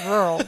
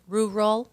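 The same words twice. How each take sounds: First: RURAL run into one blurred "rurl"; swallowed syllable. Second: RURAL pulled apart as "roo-rul"; careful two syllables. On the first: Host shows how people get by, slurred rural. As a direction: let rural collapse into a single r-heavy syllable. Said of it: "You just kind of". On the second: Host asks how one should say it, careful rural. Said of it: "what are you supposed to say?". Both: Shown as a demonstration.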